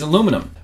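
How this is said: It is said with four syllables, American style. "we say it differently here"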